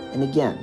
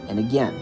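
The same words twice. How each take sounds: The two takes are said the same way.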